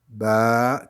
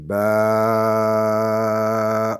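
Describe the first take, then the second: First: The vowel is held for two counts. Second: The vowel is held for six counts. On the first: "deux fois plus long" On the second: "six fois plus long"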